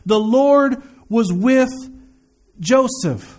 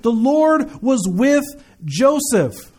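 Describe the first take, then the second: First: It is read more slowly. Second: It is read at a normal pace.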